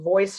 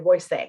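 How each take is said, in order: First: The word is said with English pronunciation. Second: The word is said with Spanish pronunciation. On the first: "instead of saying voice" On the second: "a Spanish voice, it's going to read what is on the page with Spanish phonetics"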